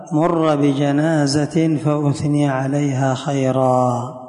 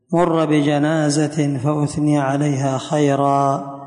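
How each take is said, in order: Both takes have the same delivery.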